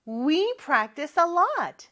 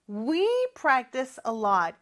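First: Higher, projected "We practice a lot"; big voice. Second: Said in the usual way. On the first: Shown as a demonstration. Teacher leading pupils in we practice a lot, big voice. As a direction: say it out brightly for a class to repeat. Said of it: "큰 목소리로 해볼까요". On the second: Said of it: "이렇게 we로도 바꿔서 쓸 수 있겠죠".

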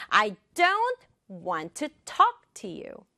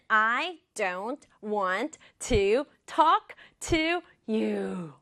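First: "don't", "want", "talk" stressed, small words light; rhythmic stress. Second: Very slow, evenly separated words. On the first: Teacher demonstrating rhythm, stress on "don't", "want", "talk". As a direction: punch "don't", "want", "talk" in a slow beat. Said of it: "딱 강조해 볼게요". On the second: Teacher showing the long sentence, word by word. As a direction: give each of "I don't want to talk to you" its own slow beat. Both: Shown as a demonstration.

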